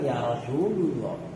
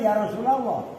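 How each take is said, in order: First: Rasul ends with a non-a vowel before Allah. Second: Rasul ends with an a vowel before Allah. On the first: The speaker calls it wrong. "Ya salah" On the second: The speaker calls it right. "wajib dibaca nasab"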